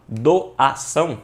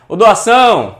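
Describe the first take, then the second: First: "doação" broken slowly into do-a-ção; syllable-by-syllable. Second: Loud, high call of "doação", stretching the final ÇÃO; calling at the door. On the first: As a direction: sound out "doação" piece by piece, leaning on each part. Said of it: "eu errei porque eu falei doação". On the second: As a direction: call out "doação" as if summoning someone. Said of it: "Quando você ba-, bate lá na porta". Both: Shown as a demonstration.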